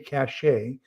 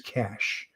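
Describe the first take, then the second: First: The word ends with an added 'ay' sound. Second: The word sounds exactly like 'cash'. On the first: The speaker calls it wrong. "a lot of people say cache" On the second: The speaker calls it right. "first and preferred pronunciation is cache, like C A S H"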